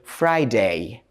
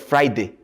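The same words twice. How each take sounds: First: The final 'day' vowel is said clearly. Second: The final 'day' vowel is weakened and unclear. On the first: The speaker calls it right. "take care of this sound A in the days names. So say Friday" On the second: The speaker calls it wrong. "instead of Friday"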